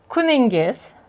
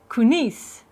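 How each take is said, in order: First: The word is said in its full, longer form. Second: The word is said in a shortened, clipped form. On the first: "I'll try to read it slower" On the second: "In Tashkent dialect and in the capital city, we tend to shorten words"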